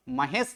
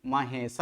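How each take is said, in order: First: महेश ending on the bare sibilant; wrong, vowel dropped. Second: महेश as ma-he-sa, low on the last syllable; right, final vowel sounded. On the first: Teacher contrasting wrong reading for students, vowel dropped. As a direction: say महेश as ma-hes, no final a. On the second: Teacher giving students the correct reading, full final vowel. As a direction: finish महेश with a voiced a. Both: Shown as a demonstration. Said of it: "महेश नहीं".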